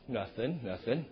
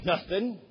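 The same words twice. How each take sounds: First: Much softer, lower, rising evasive mumble; guilty quiet denial. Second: Said in the usual way. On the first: Shown as a demonstration. Man caught watching something, quietly denying it. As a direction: answer like someone caught staring at a screen. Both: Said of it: "trying to illustrate what the word means".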